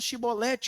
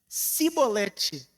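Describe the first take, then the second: First: The word begins with a sh sound. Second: The word begins with an s sound. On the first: This is the form the Ephraimites could not say. "Eles não falariam chibolete" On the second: This form reveals the speaker as an Ephraimite. "o som de C H se pronunciava em S"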